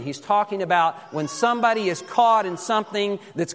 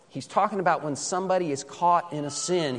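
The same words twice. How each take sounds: First: Higher, pressing repeat with weight on caught; emphatic. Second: Said in the usual way. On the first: Acted. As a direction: lift the repeat and lean on "caught". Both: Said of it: "repeated line builds".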